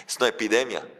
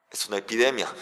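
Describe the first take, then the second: No difference in how they are said.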